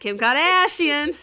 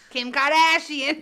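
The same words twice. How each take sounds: First: Slow, loud and higher drawn-out name; mock Kardashian drawl. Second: Slow, loud drawn-out Kim Kardashian; mock Kardashian drawl. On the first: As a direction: echo it back, slow and hammed up. Echoes the same mocking name. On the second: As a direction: stretch the name out in a vocal-fry drawl. Mocking echo of "the harbor.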